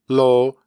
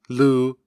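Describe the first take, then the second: First: The vowel is pronounced as o. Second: The vowel is pronounced as u. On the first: This is the standard form of the particle. "tend to pronounce the prepositions" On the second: This is how young dialect speakers say it.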